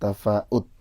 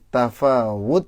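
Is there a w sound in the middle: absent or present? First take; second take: absent; present. First: No w sound is heard in the middle. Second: A w sound is heard in the middle. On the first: The speaker calls it wrong. "bukan tafaut" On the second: The speaker calls it right. "pakai wawu"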